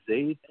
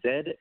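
First: The letter is said the American way. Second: The letter is said the Australian way. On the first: "instead of Z" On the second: "we just say Z"

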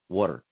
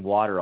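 First: It is said in a Philadelphia accent. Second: It is said in a neutral American accent. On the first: "I'll say water. Because in Philly" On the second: "instead of saying water"

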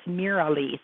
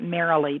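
First: The first syllable sounds like 'Mira'. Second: The first syllable sounds like 'Mary'. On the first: The speaker calls it right. "but it's Marilee. So it's M-I-R-A-L-E-E" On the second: The speaker calls it wrong. "So many people pronounce it Marilee"

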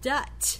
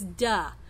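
First: The word ends with a T sound. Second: The word ends with no final consonant. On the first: A different sound replaces the final sound. "he's using a T sound there instead of the k" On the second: The final sound is left off. "that's a final consonant omission or deletion"

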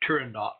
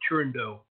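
First: The final T is clearly sounded. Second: The final T is silent. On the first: The speaker calls it right. "you do pronounce the T" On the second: The speaker calls it wrong. "People like to be exotic and say"

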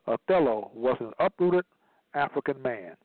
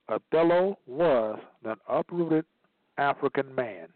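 First: The sentence is read at a quicker pace. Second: The sentence is read at a slower pace.

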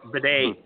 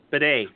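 First: The name sounds like 'bidet', stressed last. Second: The same.

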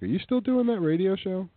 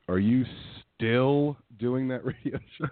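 First: The question is said with fairly even emphasis. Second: One word in the question is heavily emphasized.

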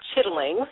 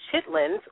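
First: The word ends with an 'ng' sound. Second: The word ends with a plain 'n' sound.

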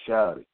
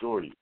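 First: It is said the Southern way, without r. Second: It is said the Northern way, with r.

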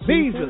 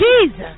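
First: It is said calmly and plainly. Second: It is said in a very animated way.

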